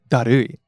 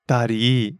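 First: The word ends with an 'oo-ee' sound. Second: The word ends with a long 'ee' sound. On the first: This is the standard form of the word. "She doesn't say darui" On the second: This is a very casual, informal way to say it. "That's very casual, informal expression"

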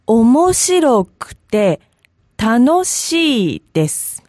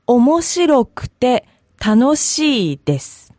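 First: It is said slowly and carefully. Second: It is said at normal speed.

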